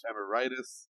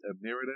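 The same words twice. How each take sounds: First: Emeritus said as em-er-EYE-tus; long-i pronunciation. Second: Emeritus with a short i in "rit"; short-i pronunciation. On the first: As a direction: rhyme the middle of emeritus with "eye". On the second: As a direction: say emeritus as eh-MERR-ih-tus. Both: Shown as a demonstration.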